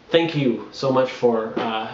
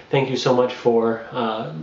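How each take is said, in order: Both takes have the same delivery.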